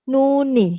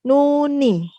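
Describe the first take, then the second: Both takes have the same delivery.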